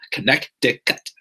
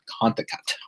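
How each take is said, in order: First: The middle syllable is said, giving four syllables. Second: The middle syllable is dropped, giving three syllables. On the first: The speaker calls it right. "but you know, Connecticut" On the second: The speaker calls it wrong. "I used to always think it was called Conticut"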